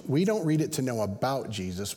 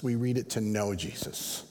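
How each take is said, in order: First: "about" stressed, the sentence left open for its correction. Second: "know" weighted as the answer, then settle downward; stress on KNOW. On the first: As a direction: lean on "about" to set up a contrast. Contrast of knowing about and knowing. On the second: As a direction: land on "know" with a falling finish. Answering half of the contrast. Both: Real, not acted.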